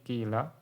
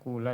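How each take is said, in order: First: The first vowel is a pure i sound. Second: The first vowel is a pure u sound. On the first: "Yang pertama tadi kila" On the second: "didomakan dengan murni... yang paling tidak fasih"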